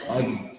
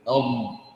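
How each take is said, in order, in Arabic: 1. الصوت دال خفيفة غير مفخمة. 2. الصوت دال ثقيلة مفخمة. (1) "هذا نطق ماذا؟ نطق دال" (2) "عليه أن يلصق اللسان بأكملها"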